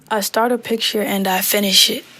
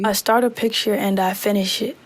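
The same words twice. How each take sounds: First: The treble is boosted, giving a bright sound. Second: The bass is boosted, giving a fuller, boomy sound. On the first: "treble, which is the high end of my voice. So let's listen while we turn this up" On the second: "if you turn up your bass, and I'll turn it up and play it for you"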